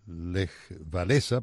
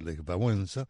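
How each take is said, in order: First: The name is said with non-Polish pronunciation. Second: The name is said with Polish pronunciation. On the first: This is how some people say it. The speaker calls it wrong. "algunos le dicen Lech Wałęsa" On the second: This is how it is said in its own language. The speaker calls it right. "pero es Lech Wałęsa en polaco"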